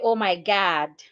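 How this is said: The vowel in God is an open ah. "they will say oh my God"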